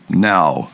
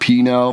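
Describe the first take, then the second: First: The name starts without a P sound. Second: The name starts with a P sound. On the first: "Could also be now" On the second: "I'm going to go with P-Now for now"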